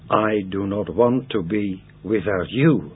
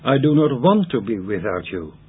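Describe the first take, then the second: First: The final word you is emphasized. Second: The final word you is not emphasized.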